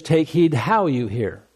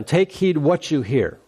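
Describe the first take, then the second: First: "how" stretched and stressed as the key word. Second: "what" stressed as the key word in the verse. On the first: Preacher contrasts Luke's wording with Mark's, stressing "how". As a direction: land firmly on "how", then let the line fall. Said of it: "what do you mean by how". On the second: Preacher quotes Mark's verse to the congregation, stressing "what". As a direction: set "what" apart with emphasis. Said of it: "it says". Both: Shown as a demonstration.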